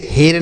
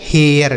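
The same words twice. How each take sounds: First: हेर as one syllable with a plain "ay" vowel; wrong reading. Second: हेयर in two parts, gliding into "-yer"; careful model reading of हेयर with a "-yer" ending; correct reading. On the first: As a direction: say हेर with no glide before the r. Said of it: "इसे हेर नहीं पढ़ेंगे". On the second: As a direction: open the vowel of हेयर into a glide before r. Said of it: "क्या लिखा है मेरे भाई?". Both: Shown as a demonstration.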